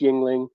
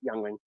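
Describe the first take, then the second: First: The first syllable sounds like 'ying'. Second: The first syllable sounds like 'young'. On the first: This is the proper name of the beer. "I know it's Yingling" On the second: This is a personal joking version of the name. "I pronounce it Youngling"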